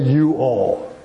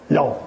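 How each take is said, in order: First: It is said as two separate full words. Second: It is said as one contracted syllable. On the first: The speaker calls it wrong. "don't say you all" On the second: The speaker calls it right. "Say y'all"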